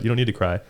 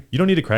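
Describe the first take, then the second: First: Said in the usual way. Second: High, teasing jab at a crying teammate; mock teasing. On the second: Teammate teasing a crying guy, high mock jab. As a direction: pitch it up like a mocking teammate. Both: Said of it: "I would for sure be like".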